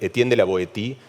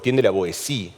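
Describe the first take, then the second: First: The name is said with Spanish sounds. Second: The name is said with French sounds.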